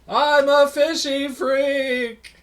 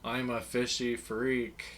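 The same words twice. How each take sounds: First: It is said louder than the first time. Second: It is said at a quieter, normal volume.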